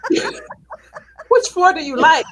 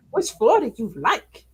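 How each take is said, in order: First: Slow, high mock-snotty robot voice; sassy elevator voice. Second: A hint of the snotty elevator; quick sassy echo; lightly voiced elevator. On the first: Mocking the AI elevator that gave her attitude, slow sassy drawl. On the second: Imitating the elevator's attitude, mild sass. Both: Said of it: "gave me attitude".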